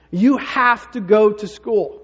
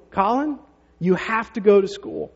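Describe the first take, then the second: First: "you have to go to school" slow, louder, each word set down by the mother; a mother closing the argument, slow and loud; final stern ruling. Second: A firm, slow mother laying down the rule; mom insisting. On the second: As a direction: mom telling her son he has to go. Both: Retold or imitated. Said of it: "Julie says to him".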